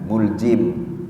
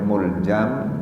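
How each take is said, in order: First: The vowel after the j is i. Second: The vowel after the j is a. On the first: "dan boleh dibaca kasrah jimnya" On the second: "dibaca fathah huruf jimnya"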